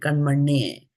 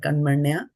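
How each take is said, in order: First: The word ends in an 'e' sound. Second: The word ends in an 'a' sound. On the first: The speaker calls it wrong. "We don't make it karmanye" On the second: The speaker calls it right. "We stop there"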